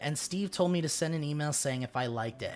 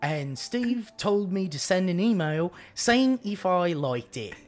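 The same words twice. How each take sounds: First: It is read in the speaker's normal voice. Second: It is read in a put-on regional accent.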